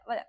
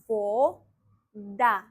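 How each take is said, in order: First: The first vowel is reduced to an A sound. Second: The first vowel is a full O sound. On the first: It is natural fast speech. "That's why in fast speech we say voda" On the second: It is read letter by letter as written. "If I read it just the way it's written here, I would say it like this"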